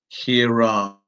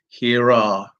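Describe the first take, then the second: First: An R sound links the two words together. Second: The same.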